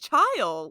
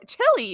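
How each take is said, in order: First: The word has a long 'i' vowel sound. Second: The word ends with an 'ee' vowel sound. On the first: The speaker calls it right. "it's child" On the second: The speaker calls it wrong. "it's not chili chili"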